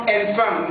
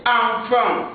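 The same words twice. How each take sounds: First: Enfant said with an open e, wrong on purpose; wrong pronunciation. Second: Enfant with a nasal a sound, final t silent; correct pronunciation. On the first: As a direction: say enfant the way learners get it wrong. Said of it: "Ça, c'est une fausse prononciation". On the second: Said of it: "la lettre E ici prend la prononciation A". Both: Shown as a demonstration.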